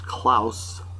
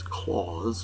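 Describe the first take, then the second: First: The name has a German pronunciation. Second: The name has an English pronunciation. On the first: This is the usual German name. "in German that really... it's pronounced Klaus" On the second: This is the name of Santa Claus. "I'm assuming this is Claus, not Klaus"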